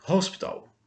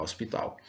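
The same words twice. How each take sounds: First: "Hospital" with a breathy h like a Portuguese R; aspirated h. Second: "hospital" with no h, starting on the o; silent h. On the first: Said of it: "tem um som aspirado de R". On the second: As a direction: drop the h and begin "hospital" on the vowel. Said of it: "não se fala o som desse H, ó, começa daqui". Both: Shown as a demonstration.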